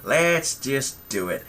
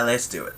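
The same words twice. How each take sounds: First: Let's just do it, stretched slow and louder in a fake American accent; slow emphatic. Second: Let's do it in a plain faked American accent; put-on American accent. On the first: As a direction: drag out every word of Let's just do it. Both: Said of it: "strange American accent".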